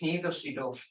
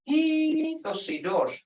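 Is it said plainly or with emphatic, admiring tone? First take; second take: plain; emphatic. First: It is said in a plain, neutral tone. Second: It is said with an emphatic, admiring tone.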